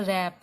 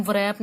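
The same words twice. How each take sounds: First: रैप starting straight on the r; silent W. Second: व्रैप with a sounded v before the r; W pronounced. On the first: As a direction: leave out any v sound before रैप. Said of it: "हम इसको बोलते हैं रैप". (रैप, शुरू में 'व' चुप) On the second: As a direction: begin व्रैप on an audible v-r cluster. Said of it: "व्रैप नहीं बोलते". (व्रैप, शुरू में 'व' बोलकर) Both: Shown as a demonstration.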